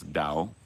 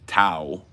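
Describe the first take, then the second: First: The word begins with a 'd' sound. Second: The word begins with a 't' sound. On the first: "It's Dao, D" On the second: "you see Tao as uh, a Western English speaker"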